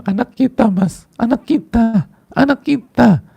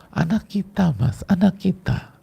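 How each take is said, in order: First: High, loud crying plea to the husband; sobbing high and loud, breaking down; tearful wail. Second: Wife finally tells her husband, high and tearful; tearful plea. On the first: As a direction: wail it like a mother who just lost her child. Wife sobbing out the news. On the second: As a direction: break the news through tears, held back a little. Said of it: "Nah, gitu misalnya". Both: Acted.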